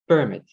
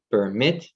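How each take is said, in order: First: Isolated "permit" as the noun, PER strong; stress on first syllable. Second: PerMIT, strong final syllable; isolated "permit" as the verb, MIT strong; stress on second syllable. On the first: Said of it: "with a beat gesture on the first syllable". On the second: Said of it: "with a beat gesture on the second syllable". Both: Shown as a demonstration.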